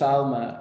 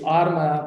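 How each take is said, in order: First: "Alma" with an L before the m, not an R. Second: "Arma" with an R before the m, not an L. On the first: Clinician contrasting two Spanish words, "Alma" with L. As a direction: say "Alma" with the L sound. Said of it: "the R sounds like an L". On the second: Clinician contrasting two Spanish words, "Arma" with R. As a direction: say "Arma" with the R sound. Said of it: "interpretation of the, uh, Puerto Rican accent". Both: Shown as a demonstration.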